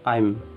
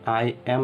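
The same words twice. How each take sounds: First: The words are shortened into one syllable. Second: Two full separate words are said. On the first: "आई और एम को short form में बोलेंगे" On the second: "आई एम नहीं बोलेंगे"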